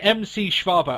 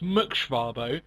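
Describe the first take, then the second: First: The first part is spelled out as two letters. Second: The first part is said as one syllable. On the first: The speaker calls it wrong. "I've been saying M C Schwabo" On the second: The speaker calls it right. "I think it's Muk Schwabo"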